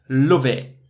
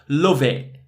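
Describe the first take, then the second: No difference in how they are said.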